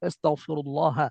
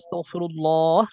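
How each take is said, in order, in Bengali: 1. শেষ স্বরধ্বনিটি ছোট রাখা হয়। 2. শেষ স্বরধ্বনিটি লম্বা করে টানা হয়। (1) "না থামলে তো" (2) "থামলে তিন আলিফ টান"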